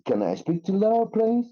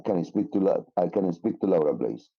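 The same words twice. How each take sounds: First: CAN I SPEAK TO LAURA, PLEASE climbing high to the end; rising question tone. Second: CAN I SPEAK TO LAURA, PLEASE low and falling, no question lift; wrong question tone. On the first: Teacher models a phone request, rising question tone. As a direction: lift PLEASE right up as a polite question. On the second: Teacher shows the captain's listener's problem, wrong falling tone. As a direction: drop PLEASE low as if it were a statement. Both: Shown as a demonstration. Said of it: "he didn't say, uh, the question in the right tone".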